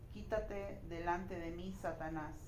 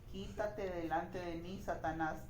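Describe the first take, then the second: Both takes have the same delivery.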